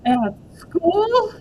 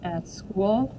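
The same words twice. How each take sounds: First: High, loud shocked repeat; the horror sinks in; alarmed. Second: Said in the usual way. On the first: Acted. May realises it's at school.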